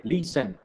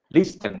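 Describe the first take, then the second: First: LISTEN said "li-sen", with no T sound; silent T. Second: LISTEN said "lis-ten", with the T pronounced; sounded T. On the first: Teacher explains the silent letter, LISTEN without its T. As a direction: leave the T out of LISTEN. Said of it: "no se pronuncia la T". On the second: Teacher contrasts with the silent letter, LISTEN with its T sounded. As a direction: put an audible T into LISTEN. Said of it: "Listen, digamos". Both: Shown as a demonstration.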